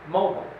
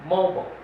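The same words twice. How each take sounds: The two takes are said the same way.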